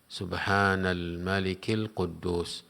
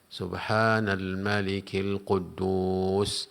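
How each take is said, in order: First: The phrase is said at an ordinary, unstretched pace. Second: The phrase is said slowly with lengthened sounds. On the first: "membaca tiga kali" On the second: "kali yang ketiganya dipanjangkan"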